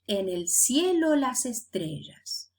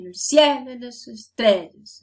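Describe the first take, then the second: First: All syllables have the same prominence. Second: Some syllables stand out over others.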